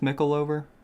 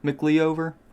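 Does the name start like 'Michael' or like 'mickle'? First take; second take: mickle; mickle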